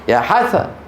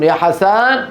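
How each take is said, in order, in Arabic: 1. النبر على المقطع الأول من كلمة Hasan. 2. النبر على المقطع الثاني من كلمة Hasan. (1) "في مصر لو أراد أن ينادي لحسب يا حسن فيضغط على الحاء" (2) "في الشام يقولون يا حسن يضغطون على فتحة السين"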